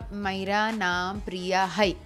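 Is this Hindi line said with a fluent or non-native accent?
non-native. It is said in an awkward, non-native Hindi accent. This is how she used to speak Hindi before learning. "मैं ऐसे हिंदी बोलती थी"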